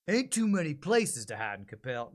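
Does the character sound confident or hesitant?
confident. The character sounds confident and bold.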